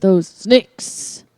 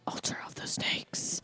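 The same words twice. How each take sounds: First: Said in the usual way. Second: Breathy whispered band name. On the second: Shown as a demonstration.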